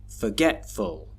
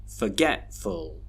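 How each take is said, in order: No difference in how they are said.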